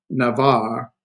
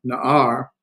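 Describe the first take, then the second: First: Navar said slowly with a V between the vowels; mistaken V sound. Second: Na'ar with no V, the two vowels simply meeting; silent ayin. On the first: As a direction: say Navar as na-VAR, drawing it out. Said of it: "excuse me, Navar, Na-, Na'ar". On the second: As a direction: say Na'ar as na-AR, no consonant between the vowels. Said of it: "This ayin has no pronunciation". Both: Shown as a demonstration.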